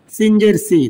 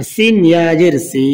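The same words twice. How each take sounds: First: Final সি with a short, quick vowel. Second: Final সি with a long held vowel; one-alif stretch. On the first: Teacher showing learners the quick reading, short final সি. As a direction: cut the last সি short. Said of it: "তাড়াতাড়ি পড়তে হবে". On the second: Teacher showing learners the stretch, long final সি. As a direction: draw out the last সি. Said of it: "এক আলিফ টান হবে". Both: Shown as a demonstration.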